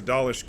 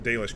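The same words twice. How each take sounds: First: Dalish with a broad ah, DAH-lish; first try, Dalish as DAH-lish. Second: Dalish with a long ay, DAY-lish; corrected Dalish, DAY-lish. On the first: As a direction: say Dalish with the open ah of father. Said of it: "Dalish camp". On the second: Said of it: "there was a Dalish camp". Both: Shown as a demonstration.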